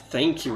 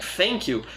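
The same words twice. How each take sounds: First: It begins with a th sound. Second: It begins with an f sound. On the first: The speaker calls it right. "It's like thank you" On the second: The speaker calls it wrong. "that I pronounce as if it had an F"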